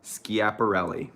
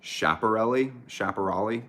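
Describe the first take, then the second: First: Schiaparelli slowly as skee-ap-uh-RELL-ee, falling; settled pronunciation. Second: Schiaparelli said as shap-uh-RELL-ee, rising; alternate pronunciation. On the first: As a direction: land firmly on Schiaparelli. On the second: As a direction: try Schiaparelli with a sh sound. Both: Shown as a demonstration. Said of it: "someone else is saying it's sh".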